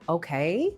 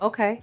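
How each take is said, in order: First: The pitch rises at the end like a question. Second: The pitch stays flat and falls at the end. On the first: It asks for approval or confirmation. The speaker calls it wrong. "Not okay with a question mark" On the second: The matter is settled and the speaker is unbothered. The speaker calls it right. "Flat, final, unbothered"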